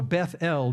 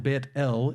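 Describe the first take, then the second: First: The first word ends with a 'th' sound. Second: The first word ends with a 't' sound. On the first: This is the English form of the name. "it's actually a kind of an English uh, manipulation of the word Beit" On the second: This is the Hebrew form of the name. "If you go to Israel today, you'll see Beit"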